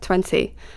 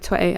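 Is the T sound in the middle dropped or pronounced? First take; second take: pronounced; dropped. First: The middle T sound is clearly pronounced. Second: The middle T sound is dropped. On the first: "pronounce my T's properly" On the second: "instead of saying like twenty"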